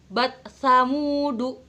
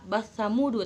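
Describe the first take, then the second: First: The final t is pronounced clearly and separately. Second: The final t merges into the following sound. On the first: The speaker calls it right. "Maka dibacanya harus idhar" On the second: The speaker calls it wrong. "Jangan dibaca basa"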